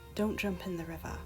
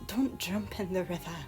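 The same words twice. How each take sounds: First: Soft-spoken standard British accent, slightly northern. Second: Sarcastic, more northern accent with Scottish burrs. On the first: "Mine is more like" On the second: "whereas Jen's would be"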